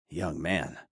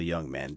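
First: Softer, wry muttered repeat; wry aside. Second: Said in the usual way. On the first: A narrator's reading. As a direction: mutter it back to yourself, wryly.

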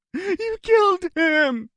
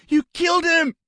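First: High, slow wailing cry; hysterical sobbing. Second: High, loud sobbing cry. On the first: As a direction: drag it out in hysteria. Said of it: "the hysteria in Barry's face". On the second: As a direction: wail it through sobs. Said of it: "he sobbed". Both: A narrator's reading.

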